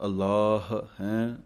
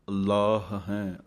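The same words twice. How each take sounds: First: ਅਲਾਹ with a single ਲ and a long vowel; first reading. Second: ਅੱਲਾਹ with a doubled, held ਲ; doubled L reading. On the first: Teacher gives students the first of two accepted readings of ਅਲਾਹ. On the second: Teacher gives students the second accepted reading, with a doubled ਲ. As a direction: hold the ਲ in ਅੱਲਾਹ with the addhak. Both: Shown as a demonstration. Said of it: "ਸੋ ਇਹ ਦੋਵੇਂ ਢੰਗ ਨਾਲ ਹੀ ਸਹੀ ਹੈ".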